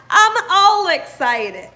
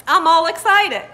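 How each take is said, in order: First: Slow, louder, laughing as she stretches it out; excited, laughing. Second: Louder, laughing through the words; bubbling over with giggles; excited, laughing. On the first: Host repeating herself for viewers, slow and laughing. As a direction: savour it through a laugh. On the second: Host greeting live viewers, excited and laughing. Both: Real, not acted.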